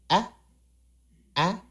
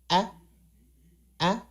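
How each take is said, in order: No difference in how they are said.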